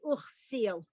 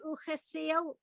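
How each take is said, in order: First: The middle vowel is dropped entirely. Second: A short vowel is said in the middle. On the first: "but most people would say" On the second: "It's probably not wrong wrong to say"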